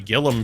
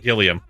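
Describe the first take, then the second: First: The surname is said as Gillum. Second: The surname is said as Gilliam. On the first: The speaker calls it wrong. "I always say Gillum instead of Gilliam" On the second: The speaker calls it right. "Or Gilliam"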